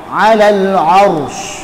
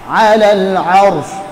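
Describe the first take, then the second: No difference in how they are said.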